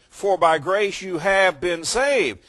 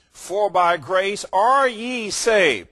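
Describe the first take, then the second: First: "have been saved" stated higher and louder, slow and deliberate; modern translation reading. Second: Higher, louder, slow King James English; old King James reading. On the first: Preacher quoting newer translations, slow and emphatic. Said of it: "That's why the newer translations would say". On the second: Preacher contrasting old King James wording, slow and loud. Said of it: "You take the old King James and it would say". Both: Shown as a demonstration.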